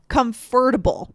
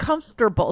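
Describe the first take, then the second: First: Every syllable is pronounced, including the middle vowel. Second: The middle vowel is dropped, giving fewer syllables. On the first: The speaker calls it wrong. "I see able after, I would think it should be comfortable" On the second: The speaker calls it right. "But it's not. It's comfortable"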